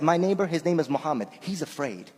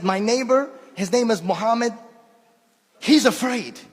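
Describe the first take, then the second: First: Said in the usual way. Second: Put-on old man's voice. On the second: Speaker repeats the old man's words, lightly imitating him. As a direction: redo it as the old man himself said it. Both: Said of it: "I swear, this is exactly what he said".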